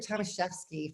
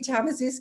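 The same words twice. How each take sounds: First: The name is said with a Polish pronunciation. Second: The name is said with an English pronunciation.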